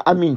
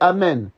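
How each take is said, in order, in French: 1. La dernière voyelle est un son 'ee' fermé. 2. La dernière voyelle est un son 'eh' ouvert. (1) "c'est pas amin, ça n'existe pas" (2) "Nous c'est amen"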